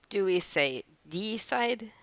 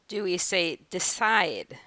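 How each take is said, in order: First: The stress is on the first syllable. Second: The stress is on the second syllable. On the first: The speaker calls it wrong. "Is it once again the first syllable that's stressed?" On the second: The speaker calls it right. "Or is it the second this time?"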